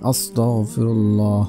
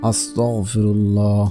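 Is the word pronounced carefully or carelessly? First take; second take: carefully; carefully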